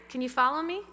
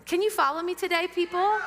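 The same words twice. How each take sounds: First: Said in the usual way. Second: Louder, higher repeat with a laugh. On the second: Shown as a demonstration. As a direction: push the question up and out, chuckling.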